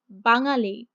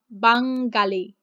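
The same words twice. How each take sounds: First: The ng sound is soft and subtle. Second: The ng sound is forceful and emphasized. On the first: The speaker calls it right. "it's more subtle" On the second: The speaker calls it wrong. "It's not Bangali"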